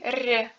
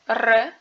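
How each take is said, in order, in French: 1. La consonne est molle, avec palatalisation. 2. La consonne est dure, sans palatalisation. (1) "qui est mou" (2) "qui est dur"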